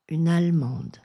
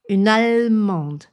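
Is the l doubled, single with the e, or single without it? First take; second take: without e; doubled. First: A short l with the e dropped. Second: The l is held long like a double consonant. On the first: The speaker calls it right. "ou bien une allemande" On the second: The speaker calls it wrong. "Je ne dis pas une allemande"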